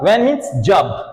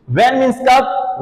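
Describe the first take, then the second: First: जब said level and falling, slow, as a plain statement; statement tune. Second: कब asked with a clear rise, slow and slightly higher; questioning tune. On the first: Teacher showing the relative meaning of when, slow falling statement. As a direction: slowly state "When means जब" and let it fall on जब. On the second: Teacher showing the question meaning of when, slow rising question. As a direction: slowly ask "When means कब?" as a real question, rising on कब. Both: Shown as a demonstration.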